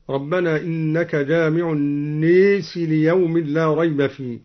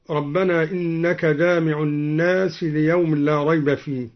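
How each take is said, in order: First: الناس recited with the long a leaned toward e, sounding النيس; imala on الناس. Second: Said in the usual way. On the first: Shown as a demonstration. Reciter demonstrates Duri's imala on الناس, tilted vowel. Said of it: "أمال الدوري لفظ الناس هكذا". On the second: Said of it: "قوله تعالى".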